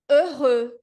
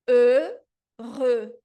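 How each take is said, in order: First: "heureux" as øʁø, slow and loud with rounded lips; French pronunciation. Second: "heureux" as a falling øʁø, loud; French pronunciation. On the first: Teacher modelling heureux for students, loud and careful. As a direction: sound out "heureux" with rounded vowels. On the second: Teacher repeating heureux, a louder falling take. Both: Shown as a demonstration. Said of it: "a palavra é".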